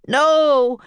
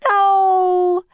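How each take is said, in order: First: Loud raised roar, less high. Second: High, loud drawn-out scream. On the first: Jack backing Annie against the captain, roaring. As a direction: roar it out in a boy's voice. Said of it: "roared Jack". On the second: Annie stopping the captain's attack, high scream. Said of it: "screamed Annie". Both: A narrator's reading.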